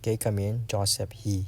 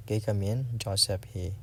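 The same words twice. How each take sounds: The two takes are said the same way.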